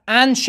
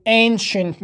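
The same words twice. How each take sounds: First: Ancient as "an-shen", short flat a; the mistaken ancient, "an" in place of "ayn"; wrong first vowel. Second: Ancient as "AYN-shent", long a; correct first vowel. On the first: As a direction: say ancient starting like "an". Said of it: "نمیگیم". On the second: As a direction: say ancient slowly, starting "ayn". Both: Shown as a demonstration.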